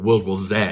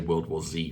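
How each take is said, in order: First: The final letter is pronounced 'zed'. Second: The final letter is pronounced 'zee'. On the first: This is how British speakers say it. "if you're from the U K" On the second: This is how American speakers say it. "I have to say World War Z for the Americans"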